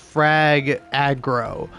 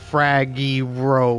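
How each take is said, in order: First: The two words are said clearly and separately. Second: The words run together with sounds misplaced. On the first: The speaker calls it right. "oh no sorry it's" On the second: The speaker calls it wrong. "I didn't say that right"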